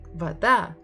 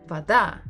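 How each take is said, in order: First: The stress is on the second syllable. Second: The stress is on the second syllable.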